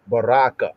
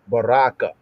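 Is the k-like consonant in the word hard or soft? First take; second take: hard; hard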